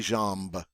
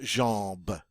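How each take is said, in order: First: The M is pronounced as a separate sound. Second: The vowel is nasal with no M sound. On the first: The speaker calls it wrong. "you never hear this M in the word. We don't say jambe" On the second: The speaker calls it right. "It's there to show us that the vowel is a nasal"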